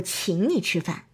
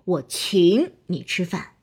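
First: The stress is blended in subtly and naturally. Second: One word is stressed in an exaggerated way.

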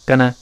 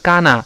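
First: The vowel is said lightly with a small mouth. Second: The vowel is said with a wide-open mouth. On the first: The speaker calls it right. "是gonna gonna gonna，就这么一个声音" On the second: The speaker calls it wrong. "注意口型不能太大，不是gonna"

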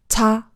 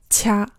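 First: It is said with a Korean aspirated consonant. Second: It is said like the Mandarin syllable qia. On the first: The speaker calls it right. "前者是韩语" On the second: The speaker calls it wrong. "念成了像中文一样的发音的话，就会变成掐"

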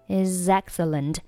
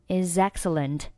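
No difference in how they are said.

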